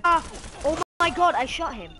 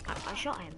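First: Loud, high outburst; exasperated protest. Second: Said in the usual way. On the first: Real, not acted. Gamer insisting the shot landed, exasperated shout. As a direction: cry foul at full voice.

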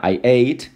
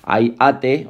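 First: Ate said "eyt"; real pronunciation. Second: Ate read as Spanish "AH-teh"; spelling pronunciation. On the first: Teacher correcting to the English sound, ate as eyt. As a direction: say ate as one syllable, rising. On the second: Teacher reciting the verb form, ate in Spanish letter sounds. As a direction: say ate as two syllables, as written. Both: Shown as a demonstration. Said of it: "o sea, I ate".

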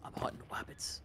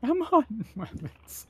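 First: Hushed hunter's whisper, no voice at all; Elmer Fudd whisper. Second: Higher, slow cartoon hunter impression; drawn-out Elmer-style hunter line. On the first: Pretend. Friend whispers a cartoon hunter line to the squad. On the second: Player echoes the cartoon hunter line, voiced high and slow.

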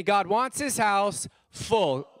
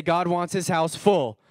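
First: Preacher leading the crowd in a slow chant; call and response. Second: Louder, looking around the pews; said out to the room. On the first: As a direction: lead the room in unison, slowly. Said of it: "Say it with me". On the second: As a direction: call it out to your neighbours. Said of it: "look around and say". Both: Shown as a demonstration.

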